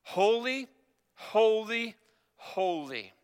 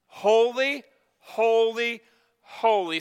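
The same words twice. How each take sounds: First: Drawn-out, measured holy cry, final word dropping; crying out in worship. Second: Raised, higher proclamation with drawn-out words; all-caps exclamation. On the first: Retold or imitated. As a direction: intone each word slowly, falling on the last. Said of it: "And they were crying". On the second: Shown as a demonstration. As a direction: proclaim each word like an exclamation point. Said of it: "saying in all caps with exclamation points".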